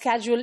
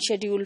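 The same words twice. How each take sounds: First: The word has an American English pronunciation. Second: The word has a British English pronunciation. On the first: "schedule is from the American English" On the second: "and schedule from the British English"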